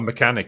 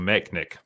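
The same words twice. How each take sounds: First: The word is said with all three syllables. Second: The middle vowel is dropped, like 'mechnic'. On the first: This is the normal way to say it. The speaker calls it right. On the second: This is how the show said it. The speaker calls it wrong.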